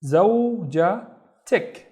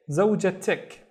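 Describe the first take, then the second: First: زوجتك very slowly, zow, ja, tik; syllable by syllable. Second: Said in the usual way. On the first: Shown as a demonstration. Teacher building "your wife" for learners, زوجتك slowly split. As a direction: separate the three syllables of زوجتك. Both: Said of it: "So it becomes".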